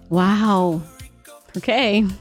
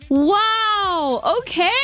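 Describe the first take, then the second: First: It sounds disappointed and judgmental. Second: It sounds supportive and enthusiastic.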